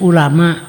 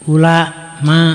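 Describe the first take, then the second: First: The word is said smoothly without a break. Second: The word is broken by a pause inside it. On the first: The speaker calls it right. "jangan dipotong" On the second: The speaker calls it wrong. "itu salah"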